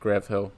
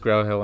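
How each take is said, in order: First: The first word is pronounced ending in a v. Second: The first word is pronounced with a vowel ending. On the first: The speaker calls it wrong. "not Grav Hill" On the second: The speaker calls it right. "it's actually Grow Hill"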